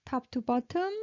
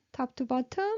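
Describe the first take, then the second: No difference in how they are said.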